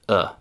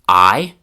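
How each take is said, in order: First: It is said as a fully relaxed schwa. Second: It is said with the full 'eye' vowel. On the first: "ending with the most reduced" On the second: "starting with the most classroom-like"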